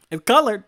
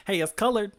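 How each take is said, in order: First: Louder, punching "colored"; loud emphatic repeat. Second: Said in the usual way. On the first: Shown as a demonstration. Cheering on Jazza that the panels count as colored, loudly. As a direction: hammer home "colored" with a loud burst. Encouraging a struggling artist.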